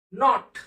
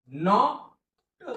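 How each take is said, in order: First: Said in the usual way. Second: Teacher stretching नॉट to show its sounds; drawn-out word. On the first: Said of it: "नॉट म्हणजे काय?". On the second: Shown as a demonstration. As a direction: stretch नॉट slowly, sounding each part. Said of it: "संपला शब्द".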